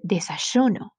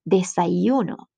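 First: The y sound is like sh. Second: The y sound is soft and gentle. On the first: This is how it sounds in Argentina. "like shh" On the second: This is how it sounds on the Caribbean and Pacific coasts. "more soft"

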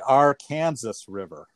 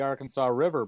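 First: Arkansas is said the way Kansas locals say it. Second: Arkansas is said the way Arkansas and Oklahoma say it. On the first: This is the name used by locals in Kansas. "but in Kansas, it's actually the" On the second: This is the name used in Arkansas and Oklahoma. "the Arkansas River in the state of Arkansas and the state of Oklahoma is called the"

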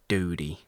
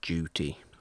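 First: It is said in an American accent. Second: It is said in a British accent. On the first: "We don't say duty like everybody else does" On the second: "we say duty"

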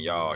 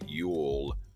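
First: It is said as one contracted syllable. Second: It is said as two full separate words. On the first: This is the usual casual way. The speaker calls it right. "instead of saying y'all" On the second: This sounds oddly formal and weird. The speaker calls it wrong. "he'd be like, you all"

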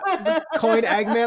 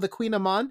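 First: The first syllable does not sound like 'queen'. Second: The first syllable sounds like 'queen'. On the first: The speaker calls it wrong. "I had no idea what it was" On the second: The speaker calls it right. "why didn't you spell it Q-U-E-E-N in the first place then?"

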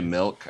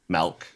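First: The vowel sounds like a short 'i'. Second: The vowel sounds like an 'e'. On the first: "I don't say milk" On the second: "With an E"

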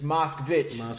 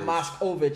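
First: No vowel sits between the s and the k. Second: An extra O vowel adds a middle syllable. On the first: The speaker calls it right. "it's Moskvich" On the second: The speaker calls it wrong. "people keep putting that O in there"

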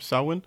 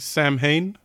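First: The word is not read the way it is spelled. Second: The word is read the way it is spelled. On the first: The speaker calls it right. "but it's pronounced Selwyn" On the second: The speaker calls it wrong. "it looks like Samhain"

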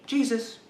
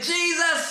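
First: It is said at a normal, quiet volume. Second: It is said much louder.

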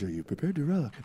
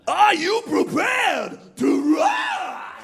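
First: It is said calmly, like a radio announcer. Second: It is said loudly and energetically.

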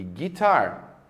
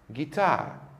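First: The final R sound is clearly pronounced. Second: The final R sound is left silent. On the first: This is the American pronunciation. "No inglês norte-americano, a letra R no final das palavras sempre é pronunciada" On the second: This is the British pronunciation. "no inglês britânico, a letra R do final das palavras nunca é pronunciada"

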